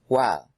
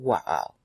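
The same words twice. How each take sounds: First: The word is shortened, with a syllable dropped. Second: The word is said in full, all syllables kept.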